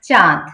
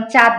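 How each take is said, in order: First: চাঁদ with a lightly nasalised aa; nasal vowel. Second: চাঁদ as plain chad, oral vowel; no nasality. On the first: Teacher corrects to চাঁদ, vowel nasal. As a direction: let চাঁ ring in the nose. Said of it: "একটু নাসিক্য প্রভাব আছে". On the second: Teacher shows the mistake, chad with an oral vowel. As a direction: keep চাঁদ out of the nose. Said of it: "সরাসরি আমরা কিন্তু চাঁদ উচ্চারণ করব না". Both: Shown as a demonstration.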